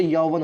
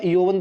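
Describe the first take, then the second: First: "यौवन" with open au, yau-van; correct form demonstrated. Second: "यौवन" with round o, yo-van; wrong form demonstrated. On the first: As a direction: open the first vowel of "यौवन" to au. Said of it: "यौवन होता है". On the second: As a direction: say the first vowel of "यौवन" as o. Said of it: "यौवन दोस्तों नहीं होता". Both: Shown as a demonstration.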